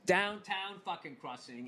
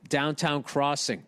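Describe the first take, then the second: First: Soft, drawn-out repeat; hushed emphasis. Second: Said in the usual way. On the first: Real, not acted. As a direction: savor it slowly, dropping the volume. Repeats place name for effect.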